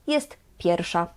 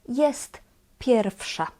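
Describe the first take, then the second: First: The w in pierwsza is left out entirely. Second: The w in pierwsza sounds like an f. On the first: "in natural speaking we just skip it" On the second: "Here the W we pronounce as F"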